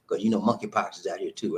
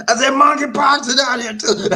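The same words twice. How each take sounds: First: Said in the usual way. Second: Loud, high comic holler; emphatic repeat. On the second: Acted. Host making sure everyone heard, loud comic holler. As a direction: holler it out so nobody misses it.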